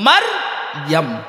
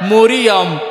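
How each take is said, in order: First: Two syllables, mar then yam. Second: Three syllables, starting with an o-like vowel. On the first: The speaker calls it right. "কোরআনে হইল মার ইয়াম" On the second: The speaker calls it wrong. "সব ভুল"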